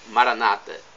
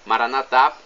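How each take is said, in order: First: The stress is on the second-to-last syllable. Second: The stress is on the last syllable. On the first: This is how Protestants say it. "com a tônica na penúltima sílaba" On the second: This is how Catholics say it. "pronúncia católica"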